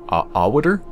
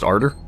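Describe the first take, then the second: First: The name is said with a W sound. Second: The name is said without a W sound.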